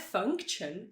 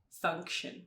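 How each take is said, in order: First: The middle consonant is a plain t sound. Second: The middle consonant is a soft sh sound. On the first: The speaker calls it wrong. "Não é function" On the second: The speaker calls it right. "é function"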